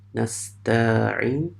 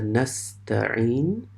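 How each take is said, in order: First: The vowel is stretched longer. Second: The vowel is kept short. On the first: The speaker calls it wrong. "you just stretch that a little bit" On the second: The speaker calls it right. "there is a Quranic word called the nasta'in"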